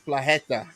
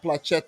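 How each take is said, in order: First: The middle consonant is a soft 'h' sound. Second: The middle consonant is a hard 'ch' sound. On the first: The speaker calls it right. "It's Plaheta" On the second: The speaker calls it wrong. "It's not Placheta"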